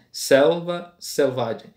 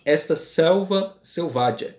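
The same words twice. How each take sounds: First: Very slow, the S of "Selva" and "selvagem" hit hard; stressing the S sounds. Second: Slow reading, leaning on each S of selva selvagem; stressing the S sounds. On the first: Teacher repeating the phrase to show the repeated S, very slow. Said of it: "E se repete uma próxima da outra". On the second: Teacher showing the class the alliteration, slowly stressing each S. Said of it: "Começa com S". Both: Shown as a demonstration.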